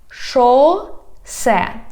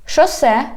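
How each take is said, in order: First: "Шосе" slow, in two separate syllables. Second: Said in the usual way. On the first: Shown as a demonstration. Teacher teaching street words, "Шосе" slowly by syllables. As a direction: stretch "Шосе", pause between the syllables. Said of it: "divide it into syllables". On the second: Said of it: "I read the whole word".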